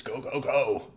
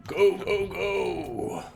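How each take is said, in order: First: StarCraft Marine voice. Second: High, loud gung-ho soldier yell; StarCraft Marine voice. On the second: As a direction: bark orders like a space marine. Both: Pretend. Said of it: "That's like my StarCraft Marine voice".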